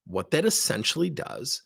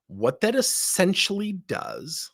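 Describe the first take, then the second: First: Said in the usual way. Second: "that" stretched high and slow; slow emphatic opener. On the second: Shown as a demonstration. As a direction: lean on "that", drawn out rising.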